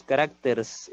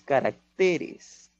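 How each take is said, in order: First: "caracters" acabado en -rs, sin "e" final; plural incorrecto caracters. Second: "caracteres" despacio, con fuerza en TE; acento en caracteres. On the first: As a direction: pega la "s" a la "r" de "caracters". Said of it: "No es caracters". ("caracters" sin la sílaba -res) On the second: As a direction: separa y marca la TE de "caracteres". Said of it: "es caracteres". (sílaba tónica TE, pronunciada lentamente, en "caracteres") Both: Shown as a demonstration.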